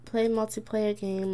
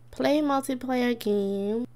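First: Said in the usual way. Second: Slow, drawn-out reading of a menu; slowly read out. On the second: Shown as a demonstration. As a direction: read each word slowly off the screen.

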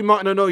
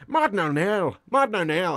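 First: Said in the usual way. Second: Irish-accented name on repeat; Martin O'Neill. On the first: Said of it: "To do Martin O'Neill". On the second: Shown as a demonstration. Impressionist showing how to do a manager, Irish Martin O'Neill. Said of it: "over and over in Irish".

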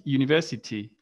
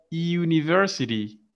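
First: University with no r, British style; British English university, r dropped; British pronunciation. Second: University with the r sounded, American style; American English university, r kept; American pronunciation. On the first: Teacher contrasting for the class, British English university. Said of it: "and in British". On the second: Teacher showing the class, American English university. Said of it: "in American". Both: Shown as a demonstration.

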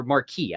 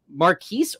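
First: "Marquis" ending on an open ee; mispronounced surname. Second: "Marquise" ending in a long ee plus s; mispronounced surname. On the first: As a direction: say "Marquis" like "mar-KEE", with a silent s. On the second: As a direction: say "Marquise" like "mar-KEES", with an s sound at the end. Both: Shown as a demonstration. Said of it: "I pronounced it doubly wrong".

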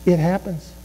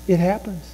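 The two takes are said the same way.

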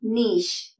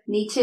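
First: "നീഷ്" as NEESH, one long syllable; correct pronunciation. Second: "നീച്ചെ" as NEE-cheh; common mispronunciation. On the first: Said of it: "അതിന്റെ ശരിയായ pronunciation". ("നീഷ്" ശരിയായി, "ഈ" നീട്ടി) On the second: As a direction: say "നീച്ചെ" with CH and a second syllable. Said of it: "പലര് നീച്ചെ എന്ന് പറയും". ("നീച്ചെ" തെറ്റായി "ച്ചെ" ചേർത്ത്) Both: Shown as a demonstration.

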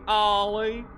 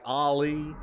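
First: "Ollie" with the first vowel drawn out long and high, "Aaah-lie"; "Ollie" said with a long drawled A; dragged out A. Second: Said in the usual way. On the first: Shown as a demonstration. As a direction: stretch the opening of "Ollie" in a southern drawl. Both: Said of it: "I drag out the A".

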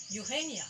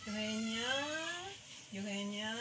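First: Eugenia with the middle syllable stressed, then falling; accented full name. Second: Eugenia with the last syllable held long, level, like a call; calling name out. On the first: Angry mother using the full name, accented but understated. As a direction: lean on the GE in "Eugenia". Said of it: "there is an accent there". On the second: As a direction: sing out the end of "Eugenia" as a mild call. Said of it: "She calls me that way". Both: Retold or imitated.

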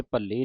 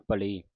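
First: ਭੱਲੀ with a long, doubled l; ਭੱਲੀ, leaning on the double l; mistaken doubled l. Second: ਭਲੀ with one light l; ਭਲੀ, no doubling of the l; correct single l. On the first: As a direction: say ਭੱਲੀ as bhal-lee. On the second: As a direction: say ਭਲੀ as bha-lee. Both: Shown as a demonstration. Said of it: "ਭੱਲੀ ਨਹੀਂ ਕਹਿ ਦੇਣਾ".

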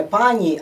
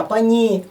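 First: "пані" stressed on the first syllable, as for one woman. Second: "пані" stressed on the final syllable, "ні"; stress on second syllable. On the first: Teacher shows learners the singular "пані", first syllable stressed. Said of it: "От такий наголос". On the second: Teacher shows learners the plural "пані", second syllable stressed. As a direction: lean on the last syllable of "пані". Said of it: "наголос на другому складі". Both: Shown as a demonstration.

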